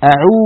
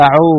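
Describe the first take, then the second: First: أعو ending in a long "oo"; higher-pitched أعو with a close "u"; correct pure waw. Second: أعو ending in "oh"; أعو with an open "o"; faulty open vowel. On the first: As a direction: round the lips, أعو as "a-'uu". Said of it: "ولا نقول أعو". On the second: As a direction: slacken the lips, أعو as "a-'oo" turned to "a-'oh". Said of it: "ولا نقول". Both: Shown as a demonstration.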